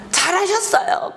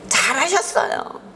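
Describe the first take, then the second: First: Higher, sneering "잘하셨어요" with a rising end; mock-congratulate, dripping with irony; sarcastic praise. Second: Said in the usual way. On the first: Jonah sneering at God's mercy, sarcastic high praise.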